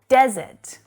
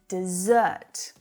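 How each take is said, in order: First: The stress is on the first syllable. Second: The stress is on the second syllable. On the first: It names a dry area of land. "We have desert, data" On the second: It means to abandon someone. "Then we've got the verb desert, dessert, da-da. Exactly like dessert"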